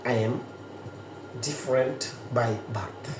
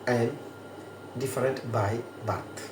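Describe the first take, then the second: The two takes are said the same way.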